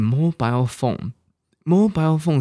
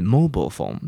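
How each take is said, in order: First: "mobile" ending like "aisle", MO-bile; British pronunciation. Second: "mobile" as MO-bul, weak ending; American pronunciation. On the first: Teacher identifying the British form, "mobile" as MO-bile. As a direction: say "mobile phone" with a full -ile vowel. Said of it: "是英国". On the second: Teacher giving the American form, "mobile" as MO-bul. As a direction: say "mobile phone" with a reduced -bul. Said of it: "美国人是". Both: Shown as a demonstration.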